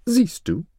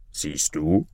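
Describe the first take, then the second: First: High-pitched vizier; triumphant vizier. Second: Lower-voiced king. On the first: Acted. Vizier to king after banishing Maruf, triumphant. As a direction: say it high, proving the point. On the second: A narrator's reading. King to his vizier about his son-in-law, kingly. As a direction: speak as a king, pitched down. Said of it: "sagte der König zu seinem Wesir".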